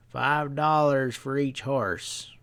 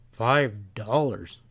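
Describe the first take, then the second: First: Slow drawling price, leaning on dollars; slow stableman drawl. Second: Slow sharp echo, weight on Five. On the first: Stableman quoting a steep price to Pat, slow drawl. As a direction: lay out the price slowly, unbothered. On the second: Pat echoing the stableman's steep price, sharp disbelief. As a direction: throw Five back at him in disbelief. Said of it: "Pat echoed sharply". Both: Acted.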